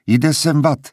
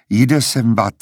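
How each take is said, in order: First: Higher, parroted echo of the same words; bird mimicking his voice. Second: Said in the usual way. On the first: A narrator's reading. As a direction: repeat it like a mimicking bird, pitched up. (ptačí napodobení jeho hlasu, výš) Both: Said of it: "zopakoval Reprozop jeho hlasem".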